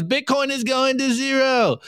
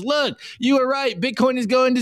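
First: Higher, mocking skeptic voice; higher taunting doubter's jeer. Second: Higher mock-whiny voice for a fake cry; higher, hammed-up teary surrender; fake crying Bitcoiner. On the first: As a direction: sneer it like a smug doubter calling a crash. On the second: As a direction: whimper it in mock defeat, playing the victim. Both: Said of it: "And he goes".

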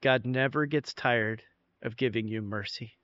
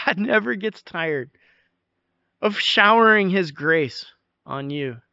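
First: Dropped to a soft, near-hushed, sincere promise; hushed reassurance. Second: Said in the usual way. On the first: Shown as a demonstration. Pastor assuring weary congregation, hushed and sincere. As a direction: lean in close and say it gently like a secret. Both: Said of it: "let me tell you this. You ready?".

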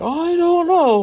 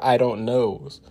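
First: Much higher, louder whimpering mockery; high shaky put-on wimp voice; whiny mock coward. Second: Said in the usual way. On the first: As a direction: mimic a scared timid wimp. Mocking a shivering coward.

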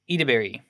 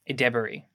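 First: Edebiri said as EE-duh-berry; trying a pronunciation. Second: Edebiri said as eh-DEB-uh-ree; trying a pronunciation. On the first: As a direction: open Edebiri with a long "ee". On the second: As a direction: open Edebiri with a short "eh", second syllable "deb". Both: Shown as a demonstration. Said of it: "How do you pronounce her name".

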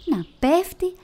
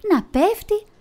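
First: Falling, rising. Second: Πέφτει pushed much higher and louder; falling, climax. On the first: Narrator tells the bat falling, pitch climbing. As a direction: let πέφτει climb as he tumbles. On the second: Narrator tells the bat falling, highest and loudest. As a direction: peak of the fall on πέφτει. Bat falls, words repeat rising. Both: A narrator's reading.

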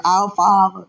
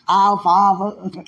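First: "our" pushed louder before "Father"; stress on our. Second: Slow, laughing Our Father, a touch louder. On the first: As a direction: lean hard on "our" in "our Father". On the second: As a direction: drag it out through a laugh. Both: Shown as a demonstration. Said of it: "Not Father, our Father".

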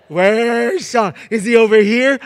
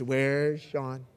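First: Loud, high searching call; dad pretending not to see his son, calling out loud. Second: Said in the usual way. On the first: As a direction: shout it like a dad hunting his kid. Dad searching for the hiding child.

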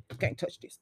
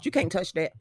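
First: Whisper. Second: Said in the usual way. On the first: Pretend. Co-host teasing about Texas barbecue, whispered. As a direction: drop to a teasing whisper on "You can't touch this". Riffing on the [name] catchphrase.

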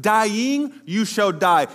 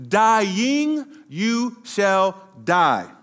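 First: "dying you shall die" slowed, weight on "dying"; solemn warning, slowed; slow stressed dying. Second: "dying you shall die" drawn out, stress on "dying"; slow weighty pronouncement. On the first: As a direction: lean into "dying", unhurried. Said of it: "God told them". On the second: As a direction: linger heavily on "dying". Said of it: "if we were to literally translate this". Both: Shown as a demonstration.

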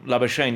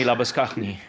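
First: Labuschagne said LAB-uh-shayn; anglicised pronunciation. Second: Labuschagne said la-bus-KAKH-nee; throaty kh in Labuschagne, ending in nee; original pronunciation. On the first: Quoting the father conceding the son's version, anglicised Labuschagne. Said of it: "you can call my son Labuschagne". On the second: Quoting the father demanding his own name, original Labuschagne. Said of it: "make sure that you call me". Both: Retold or imitated.

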